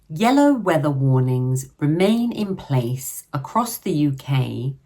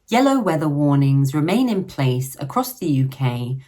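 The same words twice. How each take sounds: First: The sentence is read at a slow pace. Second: The sentence is read at a normal pace. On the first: "I'll read it slowly first" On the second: "then at a normal speed the second time"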